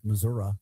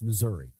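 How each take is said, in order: First: The word ends in an 'ah' sound. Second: The word ends in an 'ee' sound. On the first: "broccola like Missouri" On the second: "It ends in an I"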